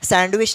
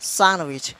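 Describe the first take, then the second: First: The d sound is pronounced. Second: The d sound is silent. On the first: The speaker calls it wrong. "सैंडविच नहीं" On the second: The speaker calls it right. "इसको बोला जाएगा सैंडविच"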